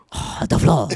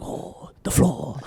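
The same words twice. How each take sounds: First: Lightly voiced woman's impression; girlfriend impression. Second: Slow, soft whispered woman's voice; girlfriend impression. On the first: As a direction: say it as a hint of the girlfriend. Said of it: "this is [name]'s impression of my girlfriend". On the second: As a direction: whisper it slowly like a put-on woman. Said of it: "I'm working on my accents".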